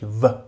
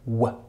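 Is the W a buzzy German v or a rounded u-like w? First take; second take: German v; u-like w. First: The W is a buzzy German v sound. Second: The W is a rounded sound between u and w. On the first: The speaker calls it wrong. "das deutsche W, aber eben nicht W" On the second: The speaker calls it right. "sondern W, W, also zwischen U und W gesprochen"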